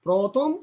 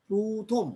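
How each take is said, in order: First: Said in the usual way. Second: প্রথম said "প্রোথোম", first vowel rounded; প্রথম pronounced like "prothom" with o; initial অ as ও. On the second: Shown as a demonstration. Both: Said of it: "ও এর মতো হচ্ছে".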